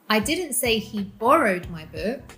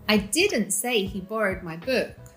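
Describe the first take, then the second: First: The stress falls on the word 'borrowed'. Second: The stress falls on the word 'didn't'. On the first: It was taken, not borrowed. "He outright took it without asking" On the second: The statement was never made. "This is not true"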